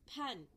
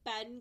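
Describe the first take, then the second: First: The first p has a puff of air. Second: The first p has no puff of air. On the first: "पेन की जगह हम क्या बोलेंगे अब?" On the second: "पी से पेन कहते हैं"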